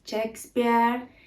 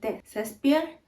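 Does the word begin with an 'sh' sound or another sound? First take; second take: sh sound; another sound. First: The word begins with an 'sh' sound. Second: The word begins without an 'sh' sound. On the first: This is the pronunciation Spaniards avoid. "Ellos no van a decir Shakespeare" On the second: This is how Spaniards say it. "Ellos van a decir Shakespeare"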